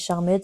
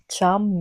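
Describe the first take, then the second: First: The title is said with a French-style pronunciation. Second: The title is said with an English pronunciation. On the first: It is a habit with a nostalgic feel. "moi je dis Charmed" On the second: It is the accepted way to say it. "Je sais que ça se dit Charm"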